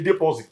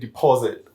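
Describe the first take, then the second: First: It is said with a Nigerian accent. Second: It is said with the local accent.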